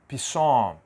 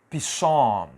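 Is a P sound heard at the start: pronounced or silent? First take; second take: pronounced; pronounced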